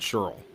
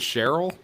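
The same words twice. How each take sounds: First: The name is said with a Baltimore-Philadelphia pronunciation. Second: The name is said the usual standard way. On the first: This is how one family pronounces the name. "our family pronounces it Cheryl. ... That's a Baltimore, Philadelphia thing" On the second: This is how the name is normally pronounced. "her name is Cheryl"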